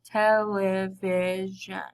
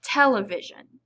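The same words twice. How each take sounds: First: Television drawn out slowly, each syllable separate. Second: Said in the usual way. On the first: Shown as a demonstration. Teacher demonstrating to the class, saying the word slowly. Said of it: "say it slowly in order to be able". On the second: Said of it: "Now let's try it together".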